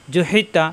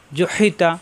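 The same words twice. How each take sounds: The two takes are said the same way.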